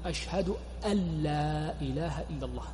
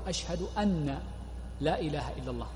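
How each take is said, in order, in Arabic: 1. النون تُدغم كاملة في اللام بعدها. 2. النون تُنطق ضعيفة قبل اللام. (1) "والصواب الإدغام" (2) "يضعفها"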